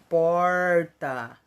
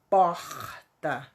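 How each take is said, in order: First: The r is pulled in a São Paulo accent. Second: The r is marked in a Rio accent. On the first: "o pessoal dá uma puxadinha nesse R" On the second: "Aqui no Rio, a gente marca o R"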